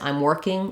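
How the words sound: It sounds neutral, with a short contracted form. It simply states the fact. The speaker calls it right. "I'm working is just neutral"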